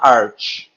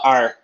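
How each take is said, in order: First: The word ends with a ch sound. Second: The word ends with a k sound. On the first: It means chief, as in arch-enemy. "se for um inimigo, que é um arch enemy... Aí fala art" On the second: It means a bow or curve. "se for, por exemplo, um arco, aí fala arc"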